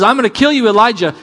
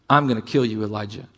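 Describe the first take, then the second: First: High, loud mock threat; little devil's threat. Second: Low, quiet threat; Jezebel. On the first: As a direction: throw out the threat in raised, heated mockery. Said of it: "this little comment from a little devil says". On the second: Acted. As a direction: menace softly, dropping away on the name. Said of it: "Jezebel makes a threat".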